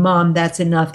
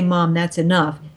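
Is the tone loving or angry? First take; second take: angry; loving. First: It is said in an angry, harsh tone. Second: It is said in a loving, gentle tone.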